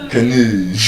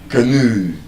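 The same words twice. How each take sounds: First: The stress is on the second syllable. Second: The same.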